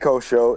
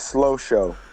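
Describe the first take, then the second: First: The name begins with a K sound. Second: The name begins with an SL sound. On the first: The speaker calls it wrong. "Don't don't don't say co-show" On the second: The speaker calls it right. "It's slow show"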